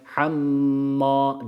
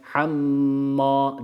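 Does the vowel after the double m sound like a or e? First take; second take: a; a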